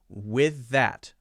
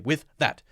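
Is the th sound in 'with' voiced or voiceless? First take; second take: voiced; voiceless. First: The th in 'with' is voiced. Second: The th in 'with' is voiceless. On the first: The speaker calls it right. "we'll add the voiced sound to the th of with" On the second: The speaker calls it wrong. "that's weird. That sounds strange"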